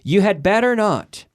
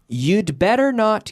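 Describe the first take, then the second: First: You and had are said as separate words. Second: You and had are shortened into one syllable.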